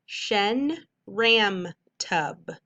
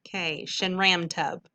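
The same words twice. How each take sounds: First: Shen ram tub stretched out very slowly syllable by syllable; teacher blending a made-up word slowly. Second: Said in the usual way. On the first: Shown as a demonstration. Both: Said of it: "Whole word".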